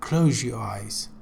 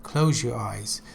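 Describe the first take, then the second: No difference in how they are said.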